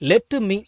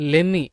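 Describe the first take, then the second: First: The two words are said separately. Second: The two words are run together.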